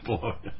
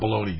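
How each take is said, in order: First: It is said the Italian way, bo-LO-nya. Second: It is said like the English word baloney. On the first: The speaker calls it right. "It's Bologna" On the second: The speaker calls it wrong. "It's not Bologna"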